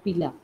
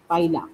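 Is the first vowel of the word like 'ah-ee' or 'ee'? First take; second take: ee; ah-ee. First: The first syllable has a short 'ee' vowel. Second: The first syllable has an open 'ah-ee' vowel. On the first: The speaker calls it wrong. "पिला म्हणायचं नाही" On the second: The speaker calls it right. "असं म्हणायचे पाहिला"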